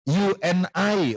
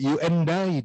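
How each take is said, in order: First: The words are said separately and carefully. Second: The words are run together into one sound. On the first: "kalau kita you and I" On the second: "orang sana nggak ada ngomong kayak gitu, you and I dia bilang"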